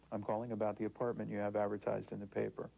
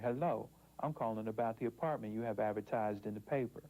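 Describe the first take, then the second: First: Crisp standard telephone voice; professional voice. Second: Same sentence in an African American accent. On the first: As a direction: sound polished and professional on the phone. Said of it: "I would call with my professional voice". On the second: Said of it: "When I use my African-American dialect". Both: Shown as a demonstration.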